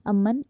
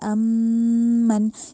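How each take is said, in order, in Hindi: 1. "m" की आवाज़ बिना नाक में रोके छोटी काटी जाती है। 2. "m" की आवाज़ नाक में देर तक रोककर लंबी खींची जाती है। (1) "अमन ऐसे नहीं कह देना है" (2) "हमने पढ़ना है अमन, यानी पे वहाँ पे रुकना है"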